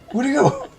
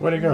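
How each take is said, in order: First: It is said with lively, excited enthusiasm. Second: It is said flatly, without much enthusiasm. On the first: The speaker calls it right. "in the original, it was like" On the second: The speaker calls it wrong. "he doesn't sound as enthusiastic"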